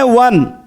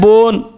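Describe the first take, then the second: First: The word begins with a v sound. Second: The word begins with a b sound. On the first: "हम लोग बोलते हैं वन" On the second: "व के बदले में ब प्रयोग हुआ"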